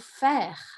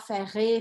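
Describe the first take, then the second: First: The word ends on the R sound. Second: The word ends with an added vowel sound. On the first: The speaker calls it right. "A última coisa que eu vou escutar é esse R" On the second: The speaker calls it wrong. "eu não vou falar ferré"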